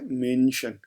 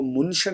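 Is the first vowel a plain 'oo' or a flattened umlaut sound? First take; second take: flattened umlaut; plain oo. First: The first vowel is a flattened umlaut sound. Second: The first vowel is a plain 'oo' sound. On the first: The speaker calls it right. "बल्कि मैंने कहा है मेंशन" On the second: The speaker calls it wrong. "मैंने इसको मुंशन नहीं कहा"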